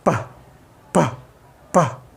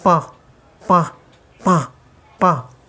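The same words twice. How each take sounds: First: पा with a clean puff of air out of the mouth; air through mouth. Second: पा with air leaking out through the nose; nasal leak. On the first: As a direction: push all the air for पा out through the lips. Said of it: "air को मुंह के ज़रिए निकालने की कोशिश करोगे". (मुंह से हवा निकालकर पा) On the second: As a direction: let पा sound blocked and nasal. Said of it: "उनकी साउंड इस तरह निकले". (नाक से निकलती हुई पा की आवाज़) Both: Shown as a demonstration.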